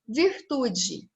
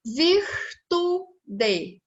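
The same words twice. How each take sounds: First: Said in the usual way. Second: VIRTUDE higher, in three beats, vir-tu-de, final DE fully sounded; split into syllables. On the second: Shown as a demonstration. Teacher counting three syllables, syllable by syllable. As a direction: break virtude apart syllable by syllable. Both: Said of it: "Eu tenho três sílabas".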